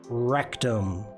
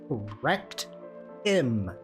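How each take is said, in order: First: The words are said fast and run together. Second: The words are said slowly and clearly apart. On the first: The speaker calls it wrong. "I never said that fast before" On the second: The speaker calls it right. "Let me let me pronunciate"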